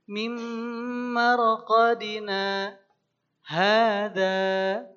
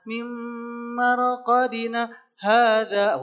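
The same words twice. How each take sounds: First: There is a clear pause after marqadina. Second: The words run on with no real pause. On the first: The speaker calls it right. "Berhentinya berhenti kira-kira sekitar dua ketukan lah" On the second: The speaker calls it wrong. "itu namanya gurung-gusuh"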